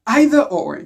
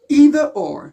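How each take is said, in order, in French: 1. Cela se dit avec une prononciation britannique. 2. Cela se dit avec une prononciation américaine.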